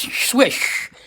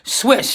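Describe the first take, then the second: First: The name ends with an 'sh' sound. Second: The name ends with a plain 's' sound. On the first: The speaker calls it right. "That is the correct pronunciation" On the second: The speaker calls it wrong. "have been pronouncing it incorrectly"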